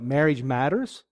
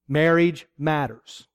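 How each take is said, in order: First: The voice rises at the end like a question. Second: The voice falls at the end like a title. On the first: It asks whether marriage is important. "And that's a good question" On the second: It names topics related to marriage. "there are matters related to marriage"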